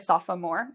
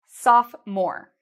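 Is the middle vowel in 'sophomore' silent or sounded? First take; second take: sounded; silent. First: The middle vowel is sounded as a full syllable. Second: The middle vowel is silent, leaving two syllables. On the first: The speaker calls it wrong. "We don't say sophomore" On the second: The speaker calls it right. "it's silent when we say it"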